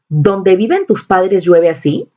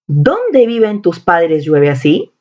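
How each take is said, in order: First: The opening word 'donde' is said without emphasis. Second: The opening word 'donde' is said with strong emphasis. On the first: The word links two clauses instead of asking a question. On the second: The sentence turns into a question and no longer makes sense.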